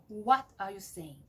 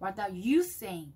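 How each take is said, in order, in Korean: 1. 'what' 단어를 강하고 길게 말해요. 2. 'you' 단어를 강하고 길게 말해요. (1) "뭐를 강조하고 싶으면 what을 강조하는 거예요" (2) "너를 강조하고 싶으면"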